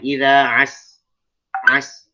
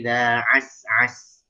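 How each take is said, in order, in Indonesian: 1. Ada jeda singkat di antara suku katanya. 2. Suku katanya langsung menyambung tanpa jeda. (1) "antum memberikan semacam saktah. Jangan" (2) "Jangan. Langsung"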